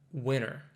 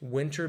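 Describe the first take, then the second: First: The T after the N is dropped. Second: The T after the N is clearly pronounced.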